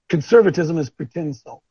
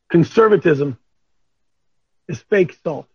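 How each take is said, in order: First: It is said at normal speed. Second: It is said slowly.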